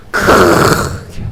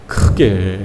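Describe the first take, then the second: First: Breathless frightened whisper. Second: Said in the usual way. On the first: Shown as a demonstration. Preacher acts out cowering soldiers, whispered in fright. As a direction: hush it out in fear.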